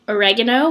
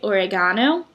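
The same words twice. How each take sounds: First: It is said with an American pronunciation. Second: It is said with an Australian pronunciation.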